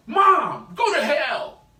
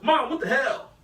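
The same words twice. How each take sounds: First: Loud, high angry shout; cursing outburst. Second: Higher-pitched exasperated yelp; startled mild outburst. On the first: Child pronouncing a curse on mom, angry shout. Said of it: "if I say it like that". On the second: Child to mom who stepped on their foot, startled yelp. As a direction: protest to Mom, short of cursing her. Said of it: "'Cause she stepped on my foot". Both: Acted.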